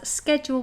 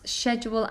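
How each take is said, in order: First: The word begins with a 'sk' sound. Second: The word begins with a 'sh' sound.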